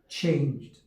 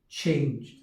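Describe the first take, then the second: The two takes are said the same way.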